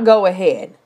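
The phrase sounds relaxed and permissive. The speaker is giving real permission. "it's not go ahead"

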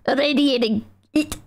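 It is said imitating the narrator's accent. The speaker calls it right. "he said it like this"

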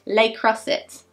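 It is said with an anglicised British pronunciation. "if I want to be really British"

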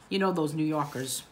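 It is said in a put-on New York accent.

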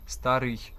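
The final sound is tense and strained. The speaker calls it wrong. "в московській часто кажуть старий"

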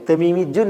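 A 'j' sound comes before the ending. This is the tribe's dialect pronunciation. "അവർ തമീമിജുൻ എന്നാണ് പറയുക"

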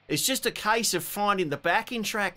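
It is said in a put-on Australian accent.

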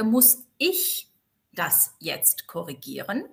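The stress is on the word ich. Could someone other than me correct it? "betone sie aber anders"

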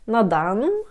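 The phrase is said with an unnatural intonation. The speaker calls it wrong.

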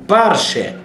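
The stress is on the first syllable. "в ашкеназийском, идышском это парше. Парше, именно ударение на первом слоге"

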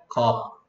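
It is said as one syllable, cup. This is how the word should be said. The speaker calls it right. "우리는 발음할 수 있으니까 우리는 뭐라고 해야 돼?"

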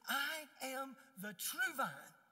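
It is said emphatically, stressing the word true.

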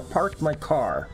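The r in park is clearly pronounced. "I worked hard not to have a Boston accent"

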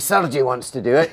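It is said in an impression of Kenny.

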